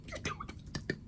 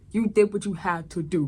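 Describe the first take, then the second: First: Whispered very high and soft; tender whisper. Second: Said in the usual way. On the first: Real, not acted. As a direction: hush it like a secret comfort. Consoling the dead character.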